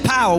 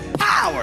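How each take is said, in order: First: The word is said plainly, without extra force. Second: The word is said forcefully, with an explosive burst. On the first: The speaker calls it wrong. "We don't say power" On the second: The speaker calls it right. "We say power. ... like a Pentecostal ... we'll spit on you while we say it"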